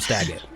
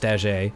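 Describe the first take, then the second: First: The name is said with an English pronunciation. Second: The name is said with a French pronunciation. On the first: This is how the group says the name. "but you all call him Staggett" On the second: This is the name's true pronunciation. "it's actually pronounced Staget, and he's French"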